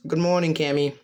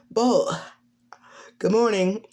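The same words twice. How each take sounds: First: Said in the usual way. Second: High-pitched character voice; higher voice, greeting a friend; Cammy. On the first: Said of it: "As he goes". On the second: Acted. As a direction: lift the pitch for a morning greeting. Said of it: "Cammy walks down".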